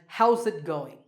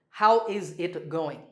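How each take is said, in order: First: The word 'is' is contracted and linked. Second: The word 'is' is pronounced fully and separately. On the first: The speaker calls it right. "we pronounce this as how's it going?" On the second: The speaker calls it wrong. "Do not say how is it going? That doesn't sound so good"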